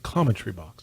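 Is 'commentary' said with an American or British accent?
British. The word is said with a British pronunciation. The speaker calls it right. "It's got to be pronounced Britishly"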